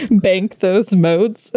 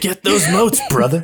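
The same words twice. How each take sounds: First: Slow, lightly voiced hobo drawl; a hint of the Drifter, drawn out; rambling folksy hobo. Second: Loud drawling announcer with a high start; rambling folksy hobo. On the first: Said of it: "You just hear". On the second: Retold or imitated. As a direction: play the Drifter calling over a loudspeaker. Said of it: "the Drifter's voice plays over the loudspeaker".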